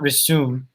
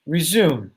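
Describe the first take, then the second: First: The middle consonant is an S sound. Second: The middle consonant is a Z sound. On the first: The speaker calls it wrong. "so it's not resume" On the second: The speaker calls it right. "we make the Z sound instead of the S"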